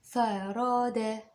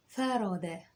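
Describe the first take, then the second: First: "فرادة" drawn out very slowly. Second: Said in the usual way. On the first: Shown as a demonstration. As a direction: spell out "فرادة" slowly for dictation. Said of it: "هقولها بشويش". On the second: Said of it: "اكتب معايا كلمة".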